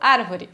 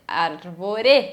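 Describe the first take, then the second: First: The stress falls on the first syllable. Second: The stress falls on the last syllable. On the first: This is the ordinary Portuguese way of saying it. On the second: This is how a French speaker would say it.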